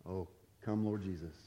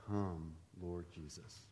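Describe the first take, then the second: First: Offhand, half-joking sigh to the Lord. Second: Very soft, slow, earnest prayer; sincere prayer. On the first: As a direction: toss it off lightly as a joke. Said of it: "maybe joke about that". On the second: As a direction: pray it quietly and mean every word. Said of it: "one of the most serious things". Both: Shown as a demonstration.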